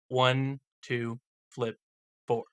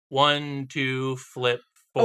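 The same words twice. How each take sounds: First: The count is said slowly. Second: The count is said fast.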